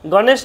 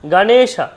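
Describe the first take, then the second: First: The word ends on a bare consonant sound. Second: The word ends with a final vowel sound. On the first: The speaker calls it wrong. "গণেশ নয়" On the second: The speaker calls it right.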